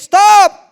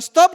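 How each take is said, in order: First: The pitch is very high and forceful. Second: The pitch is only slightly raised. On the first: The children must stop now or be punished. "Pas kalau nada tinggi" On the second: The children keep playing and ignore it. "masih nadanya baru naik sedikit"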